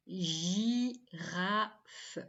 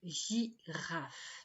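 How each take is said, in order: First: Girafe called out with a rising tune; announced word. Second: Girafe repeated softer and lower, falling; quiet repeat. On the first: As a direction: offer Girafe as a question to the class. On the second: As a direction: repeat Girafe gently to check its sounds. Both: Shown as a demonstration. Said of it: "pas de son OU dans girafe".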